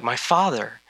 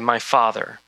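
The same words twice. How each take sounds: First: It is said with joy and excitement. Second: It is said in a flat, bored tone.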